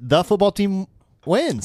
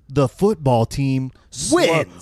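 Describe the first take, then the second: First: It is said at a normal, quick speed. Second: It is said slowly and dramatically.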